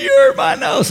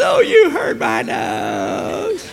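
First: High, loud wail of protest, acted; hammed-up child's shriek over a tiny hurt; whiny daughter. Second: Very slow, high, drawn-out mock wail; mocking mimicry. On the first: Daughter overreacts to brushed nose, whiny mock wail. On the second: Dad throws daughter's complaint back, exaggerated mocking whine. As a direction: stretch it out to tease an overdramatic child.

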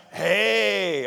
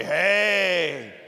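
First: "hey" with a breathy h, a short clear greeting sound. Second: "hey" repeated with the breathy h; say hey again. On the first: Pastor teaching the rough breath, saying "hey" clearly. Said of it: "is pronounced". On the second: Pastor leading the congregation, "hey" with the breathy h. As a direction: model "hey" for the congregation to echo. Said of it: "Everyone say". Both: Shown as a demonstration.

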